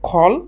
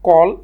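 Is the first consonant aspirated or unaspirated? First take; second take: aspirated; unaspirated. First: The first consonant is an aspirated kh. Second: The first consonant is a plain unaspirated k. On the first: The speaker calls it right. "এটার শুদ্ধ উচ্চারণ হচ্ছে খল" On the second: The speaker calls it wrong. "আমরা উপমহাদেশে এটাকে কল এবং কাম বলি"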